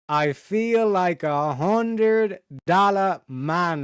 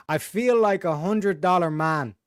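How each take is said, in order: First: Very slow, every word stretched out; drawn-out brag. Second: Said in the usual way. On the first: Shown as a demonstration. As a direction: savour it like a proud boast. Repeats catchphrase, second time stretched.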